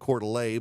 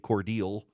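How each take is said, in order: First: It is said in the French-style way, Coeur d'Alene. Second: It is said in a shortened way, like Cordeal. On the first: An outsider from Illinois said it. The speaker calls it wrong. "said Coeur d'Alene" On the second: Locals in Georgia say it. The speaker calls it right. "in Georgia we say Cordeal"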